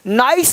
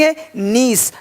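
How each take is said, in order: First: The vowel is an 'eye' sound. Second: The vowel is a long 'ee' sound. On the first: The speaker calls it wrong. "नाइस नहीं" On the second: The speaker calls it right.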